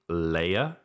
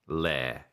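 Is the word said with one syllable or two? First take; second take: two; one. First: It is said as two syllables, like layer. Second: It is said as one syllable rhyming with air. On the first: The speaker calls it wrong. "I've heard a lot of people saying layer" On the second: The speaker calls it right. "It's a lair"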